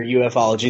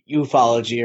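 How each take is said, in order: First: U F ology with the letters said separately, "you-eff-ology"; initials spelled out. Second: Ufology run together as one word, "you-FOL-ogy"; read as one word. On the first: Podcaster offering two names for UFO study, U F ology spelled out. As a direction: spell out U and F, then add ology. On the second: Podcaster offering two names for UFO study, ufology as one word. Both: Shown as a demonstration. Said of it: "the most correct way to say that".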